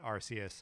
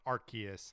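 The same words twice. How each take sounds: First: The C is pronounced as a soft S. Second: The C is pronounced as a hard K. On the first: "and not" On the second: "with the hard C, like K sound"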